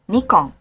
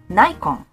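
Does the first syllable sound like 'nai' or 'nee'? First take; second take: nee; nai. First: The first syllable is said like 'nee'. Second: The first syllable is said like 'nai'. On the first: The speaker calls it right. "we pronounce it Nikon" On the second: The speaker calls it wrong. "I sometimes hear people say Nikon"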